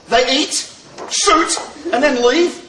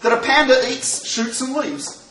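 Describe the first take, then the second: First: Eats, shoot, leave spaced slowly with pauses; comma reading. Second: "eats, shoots, and leaves" run together as one phrase; no comma reading. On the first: Teacher reading with commas to the class, slow and spaced. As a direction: pause hard at each comma. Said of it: "if you put a comma in". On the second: Teacher reading without commas to the class, running the words together. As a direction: read it straight through with no stops. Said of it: "if you don't put a comma in". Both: Shown as a demonstration.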